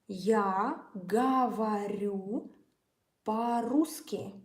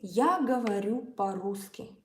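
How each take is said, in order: First: It is said at a slower pace. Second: It is said at a fast pace.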